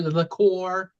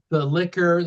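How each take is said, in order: First: "liqueur" as li-CORE, ending stressed; playful second pronunciation, "liqueur" for liquor; fancy liqueur. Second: Said in the usual way. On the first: Shown as a demonstration. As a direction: say "liqueur" with the stress on the last syllable. Says the word two ways.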